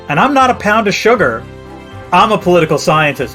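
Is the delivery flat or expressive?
expressive. It is said in his own expressive way.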